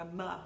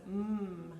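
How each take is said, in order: First: The consonant is followed by an added uh sound. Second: The consonant is said alone with no vowel. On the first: The speaker calls it wrong. "not a m" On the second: The speaker calls it right. "It's a mm"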